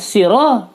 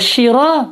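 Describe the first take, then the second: First: It begins with a plain light s sound. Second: It begins with a sh sound. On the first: "siro pakai sin" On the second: "shiro pakai shin"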